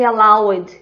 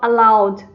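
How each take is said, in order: First: The ending is said as spelled, with extra sound. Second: The ending is just a soft D sound. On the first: The speaker calls it wrong. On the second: The speaker calls it right.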